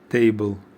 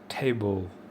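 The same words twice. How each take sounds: First: The T is said the Russian way. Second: The T is said the English way. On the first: "before webinar I was say T, T table" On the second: "now after webinar I start to talk T"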